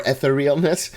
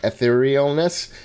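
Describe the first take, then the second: First: Etherealness as "eh-ther-EE-ul-ness"; short "eh", then "ther", in Etherealness; second own pronunciation. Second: Etherealness opening on short "eh", "eh-theer-EEL-ness"; own pronunciation. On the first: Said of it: "or Etherealness". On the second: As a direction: say Etherealness with "eh" first, then "theer". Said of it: "I would have pronounced it". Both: Shown as a demonstration.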